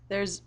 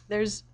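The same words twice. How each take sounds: The two takes are said the same way.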